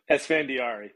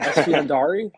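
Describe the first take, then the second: First: Esfandiari said clearly, ES-fan-di-AR-i; correct pronunciation. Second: Esfandiari said as Esiendari, rising; tentative Esfandiari with a questioning rise; unsure guess at name. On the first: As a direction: model the name Esfandiari firmly, falling. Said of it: "You're pretty close". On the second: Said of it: "I'm gonna butcher your last name". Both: Shown as a demonstration.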